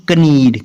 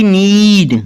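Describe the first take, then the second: First: "कनीड" with a k before the n; wrongly sounded K. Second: "नीड" starting straight on n; silent K. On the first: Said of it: "ना कि". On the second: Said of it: "ना कि कनीड". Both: Shown as a demonstration.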